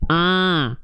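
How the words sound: The vowel sounds nasal, through the nose. The speaker calls it wrong. "suaranya masih masuk hidung berarti"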